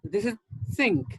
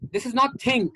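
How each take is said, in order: First: The first sound is pronounced soft. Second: The first sound is pronounced hard. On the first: The speaker calls it right. "Your tongue comes out a bit" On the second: The speaker calls it wrong.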